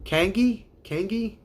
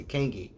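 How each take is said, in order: First: Kangi asked high and rising; rising, unsure Kangi; puzzled try. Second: Kangi dropping and quieter; falling Kangi; Kangi stated flat. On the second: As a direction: settle on Kangi. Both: Shown as a demonstration. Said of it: "That's what I see".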